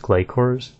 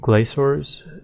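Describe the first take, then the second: First: The middle consonant is a hard sound. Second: The middle consonant is a soft sound. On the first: The speaker calls it right. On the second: The speaker calls it wrong.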